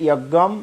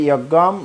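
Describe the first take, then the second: Both takes have the same delivery.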